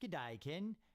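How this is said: It is read in an Australian accent.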